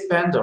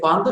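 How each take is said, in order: First: The word is said with English-style pronunciation. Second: The word is said with Turkish-style pronunciation. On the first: The speaker calls it right. "we say panda" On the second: The speaker calls it wrong. "we don't say panda"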